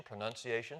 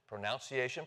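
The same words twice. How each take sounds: First: "pronunciation" with the second syllable like "nun"; NUN variant. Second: "pronunciation" with the second syllable like "noun"; NOUN variant. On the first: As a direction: softly say "pronunciation" as pro-NUN-ciation. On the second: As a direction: softly say "pronunciation" as pro-NOUN-ciation. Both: Shown as a demonstration. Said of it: "see, there we are".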